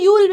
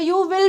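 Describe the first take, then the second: First: The two words merge into one syllable. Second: Both words are said in full. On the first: "you'll भी बोल सकते हो" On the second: "you will भी बोल सकते हो"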